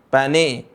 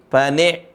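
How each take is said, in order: The two takes are said the same way.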